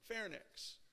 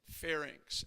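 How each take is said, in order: First: The word ends with a 'nix' sound. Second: The word ends with an 'inks' sound. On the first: The speaker calls it wrong. "it's not nix" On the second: The speaker calls it right. "it's inx"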